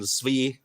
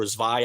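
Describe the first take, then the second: First: Zvi said as "zvee"; "ee" pronunciation. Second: Zvi said as "zvai", rhyming with eye; "eye" pronunciation. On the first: Host unsure of an operative's name, Zvi said "zvee". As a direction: end Zvi on a long ee sound. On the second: Host offering another reading of the name, Zvi said "zvai". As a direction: end Zvi on an eye sound. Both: Real, not acted. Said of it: "I don't know how you pronounce it".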